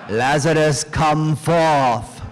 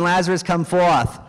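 First: It is spoken in a British accent. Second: It is spoken in a Boston accent. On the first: The speaker studied at Cambridge. "he calls out in a British accent" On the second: The speaker studied at Boston College. "If he studied at BC, it would have been"

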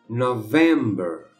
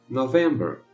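First: The word is said slowly. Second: The word is said at normal speed. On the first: "uma vez devagarinho" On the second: "a outra normal"

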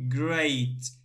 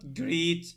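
First: The vowel sounds like ay. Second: The vowel sounds like a long ee. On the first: The speaker calls it right. "here we say a" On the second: The speaker calls it wrong. "not greet, no"

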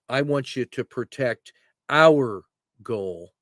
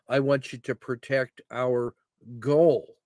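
First: The stress is on the word 'our'. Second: The stress is on the word 'goal'. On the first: The point is that the goal belongs to the team. "our team. That's who we are" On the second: The point is the goal's location on the field. "So you got to know where that is on the field"

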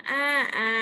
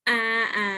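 No difference in how they are said.

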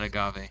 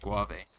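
First: The middle consonant is said as plain g. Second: The middle consonant is said as gw. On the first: The speaker calls it right. "not agave" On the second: The speaker calls it wrong. "I kept saying it guave"

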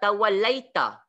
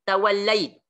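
First: The word ends with a short a vowel. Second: The word ends on a bare t sound. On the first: The reader carries on without stopping. "Tapi kalau tuan-tuan baca" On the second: The reader stops at this word. "Kita waqaf tuan-tuan"

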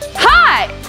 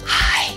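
First: The word is shouted very loudly. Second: The word is whispered very softly. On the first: "So if I shout" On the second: "whereas a whisper"

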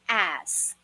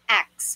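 First: The s sound comes before the k sound. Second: The k sound comes before the s sound. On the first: The speaker calls it right. "The correct pronunciation for this word is" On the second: The speaker calls it wrong. "napapronounce as X, napagbabaliktad nila... which is wrong"

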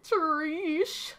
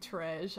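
First: The word is clipped to one short syllable. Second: The word is said in full, two syllables. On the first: "I had to say it that way" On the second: "I know it's treasure"

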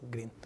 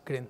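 First: The word is said with an English accent. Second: The word is said with a Spanish accent. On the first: The speaker calls it right. "not green" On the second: The speaker calls it wrong. "Colombian, Spanish"

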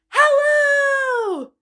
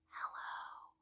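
First: It is said very loudly. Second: It is said very quietly.

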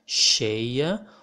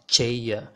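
First: It begins with an 'sh' sound, as in shark. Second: It begins with a 'ch' sound, as in change. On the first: The speaker calls it right. "will correspond to the sound of SH in English" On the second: The speaker calls it wrong. "this is not cheia. This is not the CH sound like in change or Charlie"

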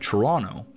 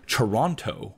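First: The second T sound is left out. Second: The second T sound is clearly pronounced. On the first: This is how locals say the city's name. The speaker calls it right. "by not pronouncing the second T" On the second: This is how outsiders say the city's name. The speaker calls it wrong. "which is how most people who are not from here pronounce it"

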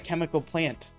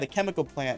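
First: The stress falls on the word plant. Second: The stress falls on the word chemical. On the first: It sounds like a flower that has chemicals. The speaker calls it wrong. "I put too much emphasis on plants" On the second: It names a place, a factory. The speaker calls it right. "if you're talking about a place, it's like"

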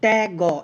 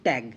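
First: The final g is split off with a vowel. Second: The word ends closed on the g sound. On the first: The speaker calls it wrong. "ত্যাগ গ এরকম উচ্চারণ করি না" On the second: The speaker calls it right. "আমরা উচ্চারণ করি ত্যাগ"

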